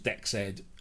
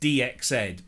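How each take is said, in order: First: The start is spoken as one word, not letters. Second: The start is spoken as the letters D and X. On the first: "he was adamant that it was Dexed" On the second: "I said it's DXed because it's a D X editor"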